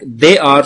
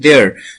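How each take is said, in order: First: Both words are said fully and separately. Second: The two words merge into one syllable.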